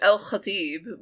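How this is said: The name is said with an Arabic pronunciation. It is the real way the name is said. "If we're being realistic"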